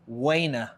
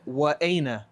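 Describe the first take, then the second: First: Wa and aina run together without a stop. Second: A glottal stop separates wa from aina. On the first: This is the casual spoken form. "they just immediately erase this and they say waina" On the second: This is the formal classical form. "That's the correct pronunciation of it"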